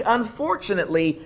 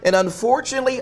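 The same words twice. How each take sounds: First: Said in the usual way. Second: Unfortunately said high with a rising push; stress on unfortunately. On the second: Shown as a demonstration. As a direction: lift and lean on the word unfortunately.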